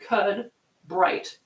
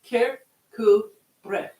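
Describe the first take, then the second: First: Every written letter is sounded as spelled. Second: Several written letters are left silent. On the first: The speaker calls it wrong. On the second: The speaker calls it right.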